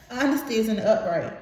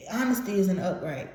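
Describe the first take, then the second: First: Honesty isn't upright said through a laugh. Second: Said in the usual way. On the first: Real, not acted. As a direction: giggle as you repeat it. Repeats card name through laughter.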